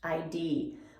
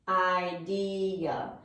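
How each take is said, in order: First: The final uh syllable is dropped. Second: The final uh syllable is pronounced. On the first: The speaker calls it wrong. "take off this last syllable we have and just say I D" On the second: The speaker calls it right. "the real pronunciation of this word should be idea"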